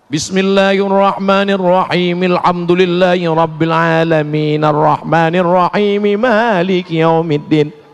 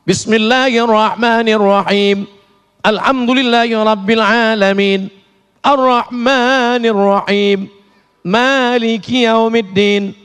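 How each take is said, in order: First: The verses run together without stopping. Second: It pauses and stops after each verse.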